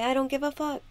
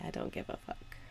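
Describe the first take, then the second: First: Shouted high and loud on the in-breath; big, exuberant shout of freedom; loud defiant declaration. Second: Airy near-whisper, much softer; soft released sigh of the words; breathy exhale. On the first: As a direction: belt it out like a triumphant release. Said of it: "breathe in and say". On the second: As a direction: let it slip out on the out-breath. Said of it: "Breathe out and say". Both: Shown as a demonstration.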